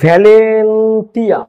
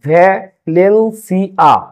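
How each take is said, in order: First: The ending is said with a 't' sound. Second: The ending is said with an 's' sound. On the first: The speaker calls it wrong. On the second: The speaker calls it right.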